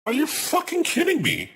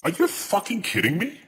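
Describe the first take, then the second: First: Much higher, incredulous shriek; shrieking disbelief. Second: Disbelieving outburst. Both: Real, not acted. Streamer outraged at game announcement.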